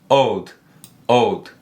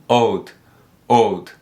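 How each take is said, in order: The two takes are said the same way.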